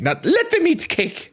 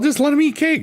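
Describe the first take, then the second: First: It is said scornfully, with contempt. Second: It is said casually, without malice.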